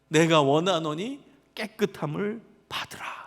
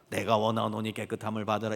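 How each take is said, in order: First: It is said earnestly, full of deep feeling. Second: It is said flatly, without any emotion. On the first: The speaker deeply wants the other to be healed. The speaker calls it right. "너무나 간절하게 말씀하셨을 거예요" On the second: The speaker does not really care. The speaker calls it wrong. "이렇게 아무 감정 없이"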